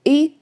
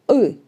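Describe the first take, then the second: First: The vowel is made with the tongue forward. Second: The vowel is made with the tongue back. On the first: "it is very close to I" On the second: "we pronounce this sound with our tongue uh, moved back"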